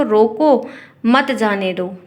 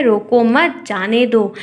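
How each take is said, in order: First: Slow "रोको", pause, then "मत जाने दो"; drawn-out "रोको", then a clear comma pause before "मत"; pause after रोको. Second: "रोको मत" together, then "जाने दो"; pause after मत. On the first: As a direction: break right after रोको, joining मत to जाने दो. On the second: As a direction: break the phrase right after मत. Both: Shown as a demonstration. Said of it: "अल्प विराम का मतलब थोड़ी देर रुकना".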